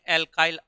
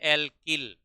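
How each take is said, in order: First: The second syllable sounds like 'kile'. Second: The second syllable sounds like 'kil'. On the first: This is the English pronunciation. "इसको English में एल्काइल आइल बोला जाता है" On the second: This is the Hindi pronunciation. "Hindi में अपन लिखते हैं एल्किल"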